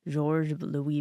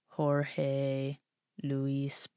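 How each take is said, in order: First: The name is said with French-like sounds. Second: The name is said with Spanish-like sounds. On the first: "I'm pronouncing it like in a in a French way" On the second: "if it was Spanish, it'd be like"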